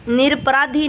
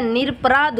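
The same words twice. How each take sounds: First: निरपराधी ending in long ee; wrong form. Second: निरपराध ending on dh, no vowel; correct form. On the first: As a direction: say निरपराधी with a final dhee. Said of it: "निरपराधी नहीं होता है". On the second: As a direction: say निरपराध without a final ee. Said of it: "निरपराध होता है". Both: Shown as a demonstration.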